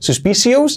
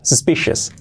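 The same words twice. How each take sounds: First: The final syllable is a full 'os' sound. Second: The final syllable is a weak 'us' sound. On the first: The speaker calls it wrong. "sobre todo ese os, que no es suspicious" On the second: The speaker calls it right. "no, suspicious"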